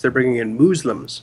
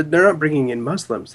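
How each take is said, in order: First: "Muslims" said as "MOOZ-lums"; mock mispronunciation. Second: Said in the usual way. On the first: Co-host correcting her on who they're bringing in, mocking "MOOZ-lums" pronunciation. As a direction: say "Muslims" with a long oo and a z. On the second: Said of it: "They're bringing in Muslims".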